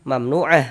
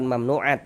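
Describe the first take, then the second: First: The word ends with a soft h sound. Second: The word ends with a t sound. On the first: The speaker calls it right. "Mamnu'ah, bukan mamnu'at" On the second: The speaker calls it wrong. "bukan mamnu'at"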